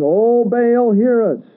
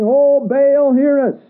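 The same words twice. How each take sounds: First: High, drawn-out plea, calling upward; slow, lifted cry of the pagan prophets; pleading cry to Baal. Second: Much higher and louder desperate call; crying out to Baal. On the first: A narrator's reading. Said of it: "called on the name of Baal". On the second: Retold or imitated. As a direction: shout it up to an idol that won't answer. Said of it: "Now just picture this in your mind".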